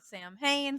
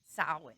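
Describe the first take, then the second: First: The first syllable sounds like 'Sam' with an m. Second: The m is said as a w sound. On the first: The speaker calls it wrong. "some people do pronounce it" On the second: The speaker calls it right. "flip the M to a W, right, and add like a Y"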